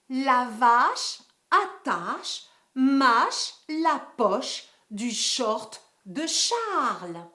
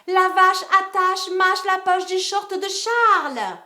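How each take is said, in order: First: The sentence is said slowly and carefully. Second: The sentence is said very quickly. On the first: "Je dis d'abord la phrase doucement" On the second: "cinquième vitesse"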